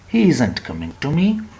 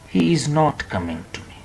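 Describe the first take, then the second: First: Is not is shortened into one word. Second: Is not is said as two full words. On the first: The speaker calls it right. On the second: The speaker calls it wrong.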